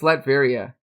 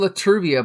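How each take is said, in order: First: No extra vowel follows the first syllable. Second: An extra vowel follows the first syllable. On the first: The speaker calls it right. "but it's Latveria" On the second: The speaker calls it wrong. "I always used to say Latruvia"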